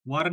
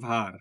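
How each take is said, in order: First: The word begins with a w sound. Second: The word begins with a v sound. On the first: The speaker calls it wrong. "ওয়ার না, ওয়ার মানে তো যুদ্ধ" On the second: The speaker calls it right. "এটা ভার"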